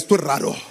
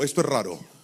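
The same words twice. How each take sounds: First: It is said loudly and forcefully. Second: It is said softly, at normal volume.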